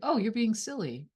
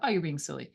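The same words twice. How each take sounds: First: It sounds light and playful. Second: It sounds dismissive and annoyed. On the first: The remark is harmless teasing. "that's just like" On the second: The remark feels belittling and hurtful. "that might be really frustrating and annoying and triggering"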